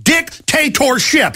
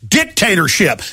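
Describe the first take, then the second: First: "dictatorship" drawn out slowly and pitched higher; "dictatorship" stretched and punched; stressed word. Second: Said in the usual way. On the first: Shown as a demonstration. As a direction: lean hard on "dictatorship", slow every syllable. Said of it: "this is called one word". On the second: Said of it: "Let me say it again".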